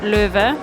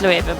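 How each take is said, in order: First: The name is said with a German pronunciation. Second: The name is said with a non-German pronunciation. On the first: This follows the brand's German origin. "normally you would pronounce it Löwe" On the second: This is how everyone actually says it. "which no one does. It's Loewe"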